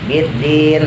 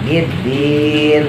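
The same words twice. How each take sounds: First: The long vowel is held for four beats. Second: The long vowel is held for six beats. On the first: "boleh dibaca empat" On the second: "lebih panjang lagi boleh dibaca enam"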